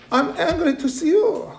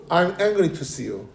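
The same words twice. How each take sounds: First: High-pitched, acted exasperation; mock angry. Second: Said in the usual way. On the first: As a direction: read it as the fed-up parent would. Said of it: "보기만 해도 화나!". (짜증 난 척 높은 목소리로)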